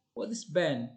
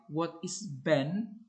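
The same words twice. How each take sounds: First: Said in the usual way. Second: Ben on a slow low rise; low rising, friendly. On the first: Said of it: "would normally produce an answer". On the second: Shown as a demonstration. Friendly teacher asking a pupil, low rising. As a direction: lift gently on Ben, encouraging. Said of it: "Low rising intonation ... indicates friendliness".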